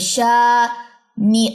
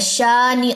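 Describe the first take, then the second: First: The syllables are separated with jerky breaks. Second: The syllables flow together without any break. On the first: The speaker calls it wrong. "ऐसे नहीं पढ़ना, इसको झटके नहीं देने" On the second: The speaker calls it right. "Simple पढ़ना"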